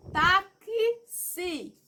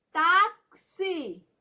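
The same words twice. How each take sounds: First: "Táxi" slowly, with the x split into k and s, like "ta-ki-si"; sounded-out taxi. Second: Said in the usual way. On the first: Shown as a demonstration. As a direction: stretch "Táxi" so the k and s of the x both ring out. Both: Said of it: "É como se fosse um som do K com um S, ó".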